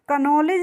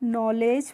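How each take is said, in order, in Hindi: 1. n से पहले एक k ध्वनि बोली जाती है। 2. शब्द सीधे n ध्वनि से शुरू होता है। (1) "इसको हम कनॉलेज नहीं पढ़ते हैं" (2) "नॉलेज पढ़ते हैं"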